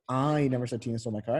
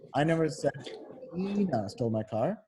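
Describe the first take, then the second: First: The stress is on "I". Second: The stress is on "Tina".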